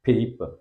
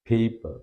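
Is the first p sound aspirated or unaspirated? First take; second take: aspirated; aspirated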